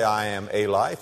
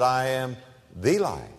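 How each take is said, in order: First: Said in the usual way. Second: "the" pressed hard, said as thee; the life, weight on "the"; stress on THE. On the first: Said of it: "He didn't say". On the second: Shown as a demonstration. Preacher correcting a misquote, stress on the. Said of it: "He said".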